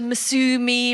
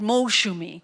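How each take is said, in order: First: The middle consonant is a plain 's' sound. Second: The middle consonant is a 'sh' sound. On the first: The speaker calls it wrong. "They didn't put the H in, and so she turned into Masumi" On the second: The speaker calls it right. "my cousin is called Molshumi"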